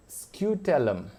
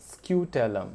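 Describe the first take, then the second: No difference in how they are said.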